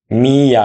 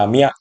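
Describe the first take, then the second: First: "মিয়া" drawn out as two beats, mi-ya; syllables apart. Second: "মিয়া" merged into one short beat, mya; blended syllable. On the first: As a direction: stretch "মিয়া" into separate mi and ya. ("মিয়া" ভেঙে টেনে, মি-ইয়া) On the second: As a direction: say "মিয়া" quickly joined as mya. ("মিয়া" জুড়ে ছোট করে, ম্যা) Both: Shown as a demonstration. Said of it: "আসবো যুক্ত বর্ণে".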